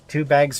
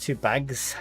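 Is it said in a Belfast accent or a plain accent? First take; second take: plain; Belfast. First: It is said in the speaker's usual accent. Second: It is said in a Belfast accent.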